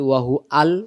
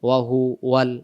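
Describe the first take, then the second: First: The wa sound before al is dropped. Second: The wa sound before al is kept. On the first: The speaker calls it wrong. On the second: The speaker calls it right.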